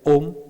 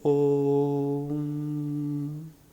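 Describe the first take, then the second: First: The word is said briefly and clipped. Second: The word is stretched out and held long. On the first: "the mantra can become short" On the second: "it can become elongated"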